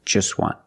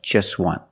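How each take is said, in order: No difference in how they are said.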